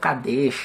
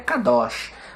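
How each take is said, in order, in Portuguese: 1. A segunda vogal tem som de 'e'. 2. A segunda vogal tem som de 'o'. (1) "mas alguns pronunciam como" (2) "A forma mais correta de pronunciar essa palavra seria"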